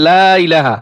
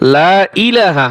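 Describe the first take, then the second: First: The i of ilaha has no glottal catch. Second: The i of ilaha starts with a glottal catch. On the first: The speaker calls it wrong. "অনেকে বলে লা ইলাহা, লা ইলাহা হবে না" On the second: The speaker calls it right. "হামজাজের ই"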